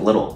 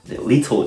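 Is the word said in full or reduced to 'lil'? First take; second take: reduced; full. First: The word is reduced to one short syllable, 'lil'. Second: The word is said in full with both syllables. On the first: "正直聞こえるのはもうLittle" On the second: "Little じゃなくて"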